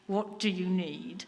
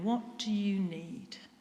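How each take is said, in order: First: It is said tensely, through clenched teeth. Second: It is said warmly and gently. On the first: The asker is exasperated and strained. "sometimes through gritted teeth" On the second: The asker cares and wants to comfort. "Not through gritted teeth, but with love and compassion in his voice"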